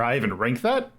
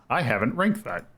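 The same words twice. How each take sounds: First: Disbelieving question, rising on THAT; incredulous. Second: Said in the usual way. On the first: Real, not acted. Streamer doubting the game is missing from the ranking, incredulous. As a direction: question it, lifting the end on "that". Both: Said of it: "you gotta sound incredulous when you say it".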